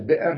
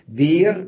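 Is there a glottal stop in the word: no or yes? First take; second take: yes; no. First: The word has a clear glottal stop in the middle. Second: The word has no glottal stop, a long vowel instead. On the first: This is the full form with the hamza pronounced. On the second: This is the softened form used in the Quraysh dialect.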